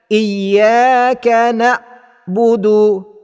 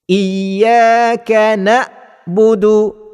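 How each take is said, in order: Both takes have the same delivery.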